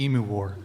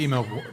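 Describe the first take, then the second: First: "emu" said properly, EE-myoo; corrected word. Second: Says email instead of emu; "email war" blurted by mistake; slip of the tongue. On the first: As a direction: fix it to "emu war". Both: Real, not acted. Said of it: "Fuck it, pull up the emu war".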